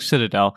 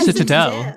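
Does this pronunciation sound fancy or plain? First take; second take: plain; fancy. First: The word is said the ordinary, everyday way. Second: The word is said in an odd, fancy-sounding way. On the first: This is the usual pronunciation. The speaker calls it right. "it's spelled like Citadel" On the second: It imitates how the audiobook readers said it. The speaker calls it wrong. "what is this weird pronunciation you guys are doing?"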